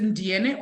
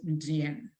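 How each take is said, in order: First: Ndiene with a final "neh" syllable; final E sounded. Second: Ndiene cut to end on the N; final E silent. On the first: Teacher checking a student's name, Ndiene with its last E sounded. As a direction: say Ndiene in three syllables, ending on an open "eh". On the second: Teacher offering another reading of a student's name, Ndiene with silent final E. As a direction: say Ndiene with no vowel after the last N. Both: Shown as a demonstration. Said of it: "hope I'm saying your name correctly".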